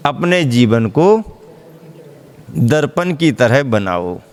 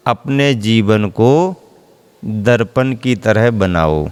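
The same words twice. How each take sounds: First: Said in the usual way. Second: Slow and low, each word weighed; slow guru's answer. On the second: Retold or imitated. Guru answers his disciple, slow and weighty. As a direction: hand the disciple the answer slowly. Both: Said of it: "क्या?".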